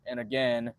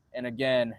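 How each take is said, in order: Both takes have the same delivery.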